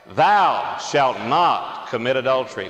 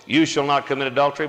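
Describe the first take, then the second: First: Congregation reading slowly together; slow, solemn group recitation with authority; many voices in unison. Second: Said in the usual way. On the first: Real, not acted. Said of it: "So let's read aloud together". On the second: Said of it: "normally we have this sort of in the contemporary language".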